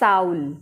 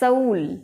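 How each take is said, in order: First: The vowel glides from an open 'ah' to 'oo'. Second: The vowel glides from a short 'uh' to 'oo'. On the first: The speaker calls it wrong. "Not साउल" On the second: The speaker calls it right. "स अ उ ल"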